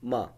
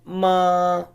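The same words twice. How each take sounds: First: The pitch is short and light, without contour. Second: The pitch stays high and level. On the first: "the fifth one ma" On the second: "the first one ma"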